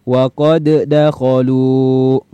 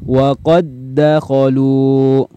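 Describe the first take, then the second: First: The first d is released with a bounce. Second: The first d merges into the second without bounce. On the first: The speaker calls it wrong. "jangan lagi dibaca" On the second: The speaker calls it right. "Maka cara bacanya seperti ini"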